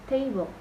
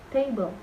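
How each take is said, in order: The two takes are said the same way.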